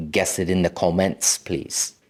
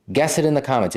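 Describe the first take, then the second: First: Put-on, maybe Nigerian accent with rounded "comments"; unplaced accent, maybe Nigerian. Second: Said in the usual way. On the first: Asking viewers to guess in the comments, maybe Nigerian accent. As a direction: slip into a playful, loosely Nigerian-sounding accent. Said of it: "What accent was that?".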